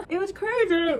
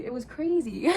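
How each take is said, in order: First: Higher, louder, half-laughing half-crying; overwhelmed giggle breaking into tears; giddy fan laughing and crying at once; laughing through tears. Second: Said in the usual way. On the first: Real, not acted. Laughing through tears after concert.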